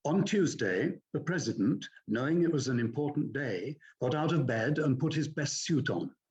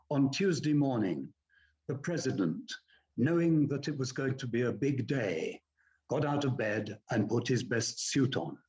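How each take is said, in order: First: "On Tuesday" and "the president" lifted up at each comma; rising tune on each comma, falling at the full stop; upward inflection on commas. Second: Commas said flat and falling, no upward lift; bad reading, flat commas. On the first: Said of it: "Good reading would be to use upward inflections on the commas". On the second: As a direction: read "On Tuesday morning" and "the president" falling, flat and lifeless. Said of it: "Now, that would be bad reading". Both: Shown as a demonstration.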